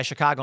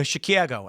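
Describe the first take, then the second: First: Said in the usual way. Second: "Chicago" mimicked with a "kya" middle, vowel as in cat; mock "Chicago" as shi-kyah-go; fake Chicago vowel. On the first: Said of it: "I'll be like". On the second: Strangers parroting the bit back, "Chicago" with a flattened cat vowel. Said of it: "And they'll go".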